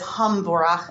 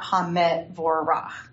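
First: No vowel is heard between m and v. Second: A short vowel is heard between m and v. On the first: The speaker calls it right. "I will pronounce it as hamvorach" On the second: The speaker calls it wrong. "and not hamevorach"

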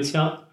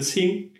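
First: The word is pronounced qiang. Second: The word is pronounced qing. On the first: This is the colloquial reading, used when buying green vegetables. "本地会有一个白读枪" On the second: This is the literary reading, used in words like green grassland. "青色青青草原，它就会更倾向于用那个青"

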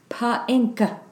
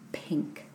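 First: Extra vowel sounds are added after the p. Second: The p joins the vowel with nothing added. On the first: The speaker calls it wrong. "you don't sound out a word saying pa-inka" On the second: The speaker calls it right. "You say p because it's pink"

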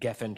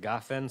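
First: The first vowel is an 'e' sound. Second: The first vowel is an 'a' sound. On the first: This is the ordinary form of the word. "gefen turns to gafen" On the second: The word stands at a major pause in the verse. "it's a pausal"

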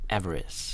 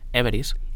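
First: It is said with an English accent. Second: It is said with a Spanish accent. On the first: "In English you would say like Everest" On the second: "in Spanish we would say Everest"

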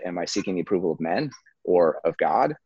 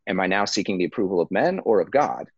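First: It sounds like a single yes-no question. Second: It sounds like a choice between two options.

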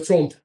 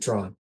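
First: The name is said with Swedish sounds. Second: The name is said with plain English sounds. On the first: "You should hit him with the Swedish" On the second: "oh no, it's actually Tron"

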